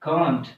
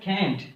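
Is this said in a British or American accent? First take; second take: British; American. First: It is said with a British accent. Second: It is said with an American accent.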